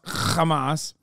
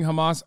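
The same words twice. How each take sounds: First: It starts with a harsh, throaty h sound. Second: It starts with a soft, plain h sound.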